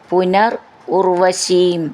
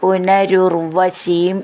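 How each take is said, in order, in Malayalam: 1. രണ്ട് വാക്കുകളും വേറെ വേറെയായാണ് പറയുന്നത്. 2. രണ്ട് വാക്കുകളും ചേർത്ത് ഒന്നാക്കിയാണ് പറയുന്നത്.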